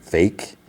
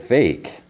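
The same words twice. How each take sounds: First: Mild, understated admission after a sigh; imitated sighing reluctance. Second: Higher-pitched, mock-incredulous echo; questioning echo. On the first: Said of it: "he, like, sighs". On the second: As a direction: throw the word back as her pointed question. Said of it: "And she's like".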